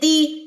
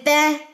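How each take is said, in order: First: The vowel is a clear 'ee' sound. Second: The vowel is an 'ay' sound. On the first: The speaker calls it right. "ई की साउंड आए आखिर में।" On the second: The speaker calls it wrong. "अगर आपने आई की साउंड निकाल दी"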